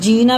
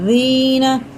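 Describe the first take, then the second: First: The first consonant sounds like a plain z. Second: The first consonant is said with tongue at teeth. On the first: The speaker calls it wrong. "बिल्कुल इसको नहीं पढ़ना है" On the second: The speaker calls it right. "जुबान की नोक ऊपर वाले दांतों के किनारे से लगा"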